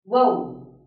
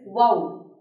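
First: The vowel sounds like oh. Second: The vowel sounds like oh.

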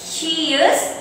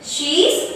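First: Both words are said separately in full. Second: The words are run together as one shortened word.

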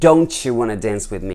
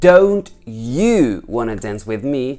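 First: "Don't you" runs together as "don'tcha". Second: "Don't you" is said as two separate words. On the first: "I can say" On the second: "Instead of saying"

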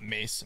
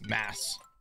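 First: The vowel is long, like in 'face'. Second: The vowel is short, like in 'glass'. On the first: The speaker calls it wrong. "not mace" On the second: The speaker calls it right. "mass, Macedonia"

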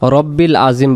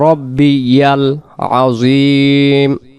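First: Rabbi runs straight into l without a y sound. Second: Rabbi is followed by a distinct yal syllable. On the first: The speaker calls it wrong. "আমরা অনেকে বলি রব্বিল আজিম" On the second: The speaker calls it right. "এখানে হবে রব্বি ইয়াল"

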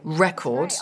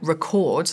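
First: The stress falls on the first syllable. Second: The stress falls on the second syllable. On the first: It is a noun: a thing that was captured. The speaker calls it right. "instead of record, right, like the noun" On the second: It is a verb: to capture something. The speaker calls it wrong. "because the student said record, like the verb"

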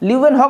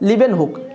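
First: The name is pronounced 'liu en hok'. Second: The name is pronounced 'liben huk'. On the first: This is the name's original pronunciation. The speaker calls it right. "লিউ এন হক হলো আসল উচ্চারণ" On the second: This is how the schoolbook writes the name. The speaker calls it wrong. "তোমাদের বইয়ে যেটা লেখা আছে সেটা হচ্ছে লিবেন হুক"

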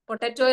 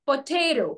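First: It is said the way Malayalis usually say it. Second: It is said the way native English speakers say it. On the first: The speaker calls it wrong. "പൊട്ടറ്റോ എന്നാണ് നമ്മൾ പറയാറുള്ളത്" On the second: The speaker calls it right. "The correct pronunciation is പൊറ്റേറോ"

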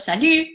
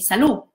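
First: The vowel is a rounded front French u. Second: The vowel is a plain back oo sound. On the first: "instead of salut" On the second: "we pronounce U as U"

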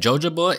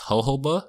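First: The word begins with a J sound. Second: The word begins with an H sound. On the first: The speaker calls it wrong. "Did you guys know that jojoba is actually pronounced" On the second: The speaker calls it right. "is actually pronounced jojoba"

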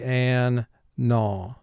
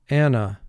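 First: The word is split into two separate syllables. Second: The word is said smoothly as in everyday speech. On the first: This is a pronunciation used for spelling. "for spelling in this word, we're going to say an-na" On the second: This is the everyday pronunciation. "Anna is my friend"

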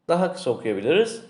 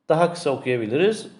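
No difference in how they are said.

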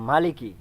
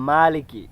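First: The first vowel after m is kept short. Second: The first vowel after m is drawn out long. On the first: "মিমের মধ্যে টান ছাড়া" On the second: "মিমের মধ্যে টান দিয়ে"

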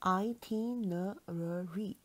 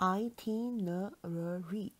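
First: The word is said with five syllables. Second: The word is said with five syllables.

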